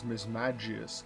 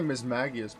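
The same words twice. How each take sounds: First: The g is said as a j sound. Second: The g is said as a hard g. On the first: The speaker calls it right. "I'm pretty sure it's Mismagius, because it's either mage, magic, it's all a J sound" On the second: The speaker calls it wrong. "I often say Mismagius"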